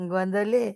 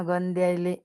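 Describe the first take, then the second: First: गंदले said short, rising, gond-le; quick rising गंदले before being corrected; गंदले as the shorter form; first try at the word. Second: गंद्यायले said soft, gənd-yai-le with the y glide; गंद्यायले as the longer corrected form; corrected word. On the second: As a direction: repeat it the proper way, गंद्यायले with three syllables. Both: Shown as a demonstration. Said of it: "गंद्यायले म्हण ना".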